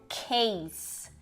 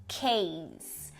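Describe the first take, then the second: Both takes have the same delivery.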